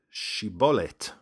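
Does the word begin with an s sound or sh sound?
sh. The word begins with an sh sound.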